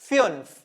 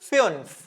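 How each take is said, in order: Both takes have the same delivery.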